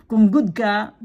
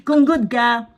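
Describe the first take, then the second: First: Said in the usual way. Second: Slow, laughing through the words. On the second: Shown as a demonstration. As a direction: chuckle as you repeat it.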